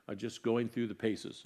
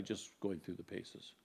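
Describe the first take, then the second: First: Said in the usual way. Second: Softer, dropped repeat of the phrase; quiet repeat. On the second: Shown as a demonstration. Echoing his own admission to the church, softer. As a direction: let "going through the paces" sink in quietly.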